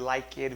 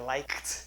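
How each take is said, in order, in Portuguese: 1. A terminação -ed é pronunciada como uma sílaba extra. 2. A terminação é um t curto, sem sílaba extra. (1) "Em vez de" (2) "não fale o E"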